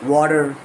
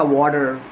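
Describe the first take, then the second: First: The final r is sounded, American style. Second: The same.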